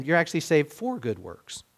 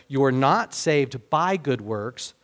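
First: "for" picked out as the key word; stress on for. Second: "by" stressed and held, the line slowed. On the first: Preacher contrasting verse ten with verse nine, stress on "for". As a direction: lean on "for" as the correction. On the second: Preacher explaining verse nine to listeners, firm stress on "by". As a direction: lean on "by" to set up a contrast. Contrasting by with for. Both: Shown as a demonstration.

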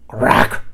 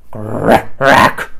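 First: Loud rasping beast screech; screeched crack. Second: Loud growly beast shout; shouted crack. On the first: Beast screeching at the bird. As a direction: screech it like a cross monster. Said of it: "screeched Grackle". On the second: Beast shouting at the bird. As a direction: bellow it like a grumpy beast. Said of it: "shouted Grackle". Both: A narrator's reading.

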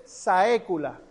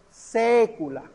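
First: SAECULA said sa-E-cu-la; split A-E. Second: SECULA said SE-cu-la, one open e. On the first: Teacher showing students what not to say, saecula with split vowels. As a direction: sound a and e separately in saecula. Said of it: "No se dice saecula". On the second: Teacher showing students the right way, secula with one open e. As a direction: begin secula with a single open e, slowly. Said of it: "una E abierta". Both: Shown as a demonstration.

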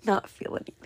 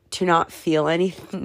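First: Whispered through a laugh. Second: Said in the usual way. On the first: Real, not acted. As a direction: repeat it in a giggly whisper. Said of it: "That sounds so bad". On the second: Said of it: "that sounds so sad".

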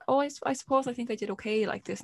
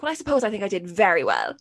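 First: Softer, higher, hesitant little reply; unsure answer. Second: Confident, upbeat retake of an answer; more positive. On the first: Child answers presenter in practice run, unsure. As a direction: give a tentative, unconvinced answer. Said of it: "say it a bit more, kinda, like, more positive". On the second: Child redoing answer for the cameras, confidently positive. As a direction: sell the answer with self-assurance. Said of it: "more positive there in, like, in when". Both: Retold or imitated.

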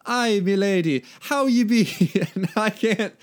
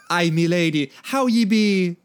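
First: Put-on high Celtic accent slipping into Jamaican; botched Celtic accent. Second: Louder, higher hammed-up Celtic greeting; Celtic accent. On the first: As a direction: try Celtic, land accidentally on Jamaican. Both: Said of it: "donning his best Celtic accent".

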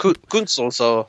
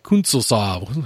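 First: "Ku-, Künzelsau" stumbled on the first syllable, then said slowly; halting attempt. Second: "Künzelsau" said very slowly, rounded ü, rising at the end; careful pronunciation. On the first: Real, not acted. Friend unsure of the German town name, stammering it slowly. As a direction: feel your way into "Künzelsau", unsure of it. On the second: Shown as a demonstration. Guest repeating the town name back to host, slow and careful. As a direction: spell out "Künzelsau" slowly and deliberately, as the model. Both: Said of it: "however you would pronounce that".

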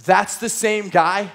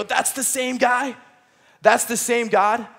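First: Slow, awed that's the same guy; dawning realization. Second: Slow, wondering that's the same God; awed realization. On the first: Retold or imitated. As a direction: let it sink in as you say it. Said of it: "moment of realization". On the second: Acted. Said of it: "you read these stories and you go".

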